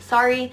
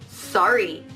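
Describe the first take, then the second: First: It is said politely, to get attention. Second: It is said indignantly, like a challenge.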